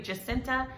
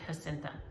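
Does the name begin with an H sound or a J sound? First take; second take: J sound; H sound. First: The name begins with an English J sound. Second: The name begins with an H sound.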